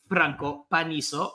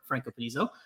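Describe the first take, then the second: First: The R is rolled. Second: The R is not rolled.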